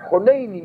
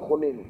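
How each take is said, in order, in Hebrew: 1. המילה מסתיימת בצליל 'ee'. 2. המילה מסתיימת בצליל 'oo'. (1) "אבל יוצא לו להגיד" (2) "הוא מתכוון להגיד חוננו"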